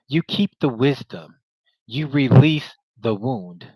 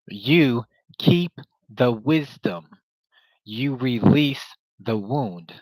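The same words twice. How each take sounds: First: It is said at a normal pace. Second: It is said slowly and deliberately.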